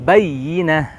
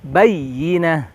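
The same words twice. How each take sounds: Both takes have the same delivery.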